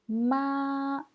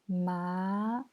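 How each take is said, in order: First: The pitch stays high and level. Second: The pitch rises from middle to high. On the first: "Premier ton" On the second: "Deuxième ton"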